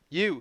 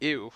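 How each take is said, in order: First: The word starts with a Y sound, like 'you'. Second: The word starts with a plain vowel, no Y. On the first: The speaker calls it right. "Thank you" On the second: The speaker calls it wrong. "I'm mispronouncing that"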